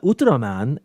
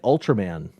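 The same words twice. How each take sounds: First: The name is said with Japanese sounds. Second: The name is said with English sounds. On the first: The listeners recognize the name at once. The speaker calls it right. "they all knew what I was talking about immediately because I didn't say it right" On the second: The listeners do not recognize the name. The speaker calls it wrong. "They had no clue what I was talking about"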